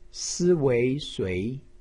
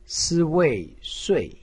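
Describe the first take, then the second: First: The pitch rises from mid to high. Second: The pitch falls sharply from high. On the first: "二声" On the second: "四声"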